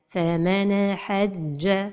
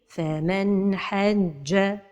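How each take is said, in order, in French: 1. Le son n se termine par un écho rebondissant. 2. Le son n est court, clair et fluide. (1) "La première erreur, c'est al-qalqala de an-noun as-sakina" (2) "la prononciation correcte"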